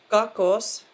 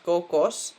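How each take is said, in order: First: The first vowel sounds like A. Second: The first vowel sounds like O. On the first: The speaker calls it right. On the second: The speaker calls it wrong.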